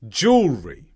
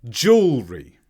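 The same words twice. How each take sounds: No difference in how they are said.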